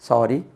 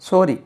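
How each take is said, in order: First: The first vowel is between aa and o. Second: The first vowel is a rounded o sound. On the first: The speaker calls it right. "ரெண்டாவது correct use பண்ணுவேன்" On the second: The speaker calls it wrong. "மூணாவது ஓ சொல்லுவேன்"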